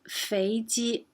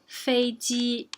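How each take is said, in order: First: The first syllable rises, the second stays level. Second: Both syllables have a high level pitch. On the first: It means fat chicken. "if it has second and first, it's 肥鸡, fat chicken" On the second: It means airplane. "if it has both first tones, it means airplane"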